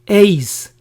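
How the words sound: It is said with an English pronunciation. "the English versions are"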